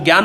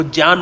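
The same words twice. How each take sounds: First: ज्ञान said as "gyaan" with a hard g and y; the everyday "gyaan" for ज्ञान; common gyaan pronunciation. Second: ज्ञान said as "jñaan", starting with j and no hard g; ज्ञान as Veda readers say it, "jñaan"; Vedic pronunciation. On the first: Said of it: "वो ज्ञान नहीं बोलते". (ज्ञान को "ग्यान" बोलें) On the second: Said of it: "वो ज्ञान बोलते". (ज्ञान को वेदपाठी की तरह बोलें) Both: Shown as a demonstration.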